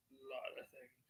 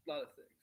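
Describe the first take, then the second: First: Hushed whisper, no voice. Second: Said in the usual way. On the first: Shown as a demonstration. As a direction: breathe the words as a secret. Repeating phrase, then whispering it.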